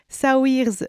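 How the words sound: The name is pronounced with French sounds. "je vais le dire à la française"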